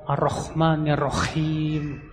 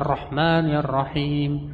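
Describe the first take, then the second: First: The h in Rahman is a harsh kh. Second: The h in Rahman is a breathy h. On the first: The speaker calls it wrong. "dia baca Ar-Rahman ya Rahim. Oke, kho" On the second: The speaker calls it right. "Harusnya Ar-Rahman ya Rahim"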